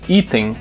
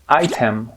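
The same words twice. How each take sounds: First: It is said with a Portuguese pronunciation. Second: It is said with an English pronunciation.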